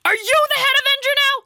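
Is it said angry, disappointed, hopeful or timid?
angry. It sounds angry.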